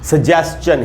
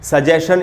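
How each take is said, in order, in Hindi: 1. अंत में 's-chun' है, जिसमें t की आवाज़ है। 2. अंत में सादा 'shun' है, उसमें कोई t नहीं। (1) "इसका सही उच्चारण है दोस्तों सजेस्चन" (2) "इसका बिल्कुल ही गलत उच्चारण होगा"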